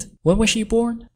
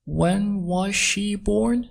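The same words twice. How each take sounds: First: Said in the usual way. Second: Slow, word by word, high pitch; slow, careful model reading; slowed-down teaching repeat. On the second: Shown as a demonstration. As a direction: stretch out each word for learners. Teacher repeats line slowly for learners.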